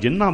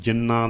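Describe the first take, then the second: First: The n carries an h-like tonal quality. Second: The n is held, with no h-like quality. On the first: It means those who. "ਜੇ ਜਿਨ੍ਹਾਂ ਦਾ ਅਰਥ ਹੈ ਤਾਂ ਜਿਨ੍ਹਾਂ ਬੋਲਾਂਗੇ" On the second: It means of jinns. "ਨੰਨੇ ਦੇ ਪੈਰ ਦੇ ਵਿੱਚ ਹਾਹਾ ਨਹੀਂ ਲੱਗਣ ਦੇਣਾ, ਜ਼ਬਾਨ ਨੂੰ ਰੋਕ ਕੇ ਬੋਲਣਾ ਹੈ"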